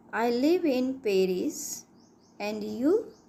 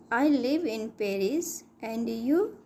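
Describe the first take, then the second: No difference in how they are said.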